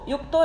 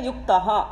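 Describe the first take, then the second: First: The word ends in an o sound. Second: The word ends in an aha sound. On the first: The word is joined to what follows. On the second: The line is split after this word.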